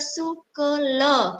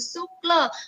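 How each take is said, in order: First: An extra vowel is heard between k and l. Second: The k and l join with no vowel between. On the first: The speaker calls it wrong. "boya ja sukela" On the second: The speaker calls it right. "menggantung sukla"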